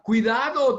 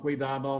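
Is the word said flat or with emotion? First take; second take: emotional; flat. First: It is said urgently, with strong emotion. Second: It is said flat, like a robot. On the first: A person is warning of a real danger. "alguien diga" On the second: A machine is reporting a danger. "un robot nos diga"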